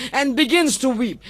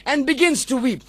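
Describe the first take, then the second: No difference in how they are said.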